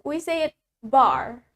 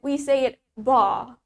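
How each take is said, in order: First: The final r sound is clearly pronounced. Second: The final r sound is not pronounced. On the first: "In American accent" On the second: "in British accent"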